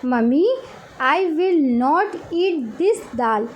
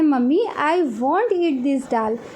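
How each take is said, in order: First: It is said in full as 'will not'. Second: It is contracted to the single word 'won't'.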